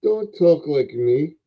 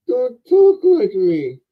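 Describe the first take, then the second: First: Said in the usual way. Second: Much higher, slow mocking echo; mimicking mockingly. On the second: Elf toy mimicking the man's words back, high and slow. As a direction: parrot him back in a high teasing voice. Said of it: "so I'm talking like you".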